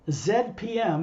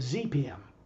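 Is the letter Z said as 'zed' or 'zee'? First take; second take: zed; zee. First: The letter Z is said as zed. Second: The letter Z is said as zee. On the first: "In Canada, they would say Z P M" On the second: "instead of"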